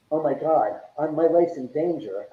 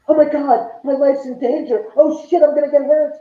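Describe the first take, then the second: First: Said in the usual way. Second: "Oh my God, my life's in danger" shrieked much higher and louder; mock panic. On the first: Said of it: "like going". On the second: Homeowner mocking ghost hunters who panic, shrill mock terror. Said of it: "It's like".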